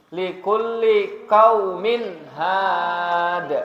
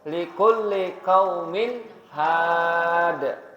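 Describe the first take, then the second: No difference in how they are said.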